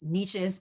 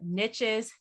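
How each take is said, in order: First: It is said without rhyming with riches. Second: It is said to rhyme with riches. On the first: It is the way the word really sounds. "even though it's niches" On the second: It keeps the rhyme of the title. "it wouldn't rhyme that way"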